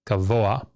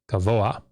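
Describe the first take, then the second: No difference in how they are said.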